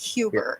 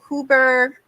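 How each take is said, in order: First: The name begins directly with a vowel sound. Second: The name begins with an audible H sound. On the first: The speaker calls it right. "it's like Uber" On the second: The speaker calls it wrong. "Am I saying that right with the H?"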